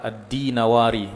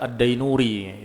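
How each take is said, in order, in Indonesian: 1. Namanya dibaca di-na-wa-ri. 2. Namanya dibaca dai-nu-ri. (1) "Yang benar adalah ad-dinawari" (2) "Selalu dibaca ad-dainuri, itu keliru"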